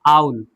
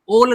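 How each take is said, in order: First: The vowel glides like 'ow' in cow. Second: The vowel is a plain 'oh' sound. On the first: The speaker calls it right. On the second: The speaker calls it wrong.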